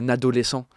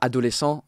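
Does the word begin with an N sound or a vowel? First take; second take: N sound; vowel. First: The word begins with an added N sound. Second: The word begins directly with a vowel. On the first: The speaker calls it wrong. "elle va dire" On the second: The speaker calls it right. "au lieu de dire"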